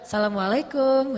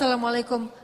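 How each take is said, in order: First: The greeting is said in a flirtatious tone. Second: The greeting is said in a plain, neutral tone.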